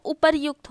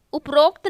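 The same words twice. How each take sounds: First: उपर्युक्त with a "yu", "upar-yukt"; उपर्युक्त as "upar-yukt", not "uprokt"; correct form. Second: उपरोक्त with an "o", "up-rokt"; उपरोक्त run together as "uprokt"; wrong form. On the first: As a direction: say उपर्युक्त with r before y. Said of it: "वो उपर्युक्त होता है". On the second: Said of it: "उपरोक्त नहीं होता". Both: Shown as a demonstration.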